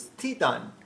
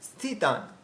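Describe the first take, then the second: Both takes have the same delivery.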